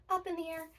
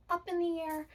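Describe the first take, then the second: No difference in how they are said.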